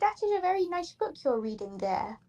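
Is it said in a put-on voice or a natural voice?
put-on. It is said in a put-on funny voice.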